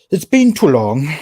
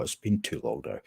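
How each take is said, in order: First: Emphatic louder repeat. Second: Said in the usual way. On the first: Real, not acted.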